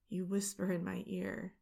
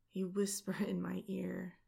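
First: Said in the usual way. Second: Whispering. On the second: A narrator's reading. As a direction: breathe the words into the ear. Intimate narration, whispered.

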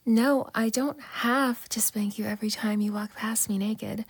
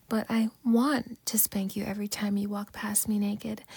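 First: "don't" leaned on, whispered teasing; stress on don't. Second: "want" stretched and stressed in a whisper. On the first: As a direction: mark the word "don't" in "I don't have to spank you". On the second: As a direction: lean hard on "want" in "I want to spank you". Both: Shown as a demonstration. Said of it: "There's a difference".

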